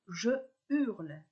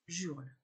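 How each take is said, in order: First: The vowel of je is kept before hurle. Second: The vowel of je is dropped before hurle. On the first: The speaker calls it right. "je dis je hurle" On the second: The speaker calls it wrong. "et non j'hurle"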